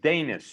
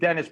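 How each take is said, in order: First: A slight y sound colors the first vowel. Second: The first vowel is plain, with no glide. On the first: The speaker calls it right. "a slight Y there" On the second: The speaker calls it wrong. "not as in Dennis"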